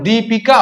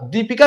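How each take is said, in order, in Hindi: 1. पहला स्वर लंबा है। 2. पहला स्वर छोटा है। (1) "द पर बड़ी का मात्रा होगा" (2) "दीपिका नहीं होगा"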